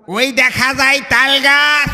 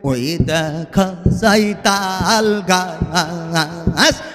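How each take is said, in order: First: It is said in a Jhenaidah comedian's voice. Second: It is said in a Zaker Party recitation style.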